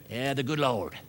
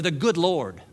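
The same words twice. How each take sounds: First: Put-on Southern accent. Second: Said in the usual way. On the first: Preacher mocking a religious cliche to the congregation, Southern accent. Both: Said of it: "talk in a Southern accent".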